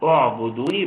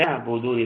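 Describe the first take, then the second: First: اعبدوني begun with u, as u'buduni; demonstrating the correct u'buduni start; correct pronunciation. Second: اعبدوني begun with a wrong vowel, shown as a mistake; demonstrating the wrong opening vowel of اعبدوني; wrong pronunciation. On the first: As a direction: open اعبدوني with a clear u vowel. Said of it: "إنما الصح نبدأ نقول". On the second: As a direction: start اعبدوني the wrong way, not with the u sound. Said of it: "ده خطأ". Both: Shown as a demonstration.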